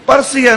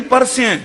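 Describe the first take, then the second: First: ਪਰਸਿਆ ending in open aa, parsiya; higher pitch, end ਪਰਸਿਆ on -iya; mispronunciation shown. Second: ਪਰਸਿਆ said parsi-ai, no aa ending; careful correct pronunciation. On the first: Preacher showing a misreading, parsiya with aa ending. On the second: Preacher correcting the reading, parsi-ai ending. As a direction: finish ਪਰਸਿਆ on a front ai vowel. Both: Shown as a demonstration. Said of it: "ਨਹੀਂ ਪਰਸਿਆ".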